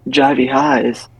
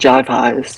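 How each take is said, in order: First: The first word has two syllables. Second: The first word has one syllable. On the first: This is the name as it was meant. The speaker calls it right. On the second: This is how the listener has been reading it. The speaker calls it wrong.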